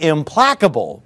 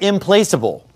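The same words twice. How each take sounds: First: The middle syllable has a short vowel, like plack. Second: The middle syllable sounds like the word place. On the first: The word means unable to be appeased. The speaker calls it right. "It's actually implacable" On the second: The word is linked to placing people somewhere. The speaker calls it wrong. "I've heard some people pronounce it implacable"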